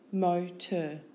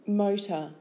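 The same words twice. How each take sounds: First: "Motor" split into mo, tor; syllable by syllable. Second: Said in the usual way. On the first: Shown as a demonstration. Teacher giving syllables for spelling, Motor in two beats.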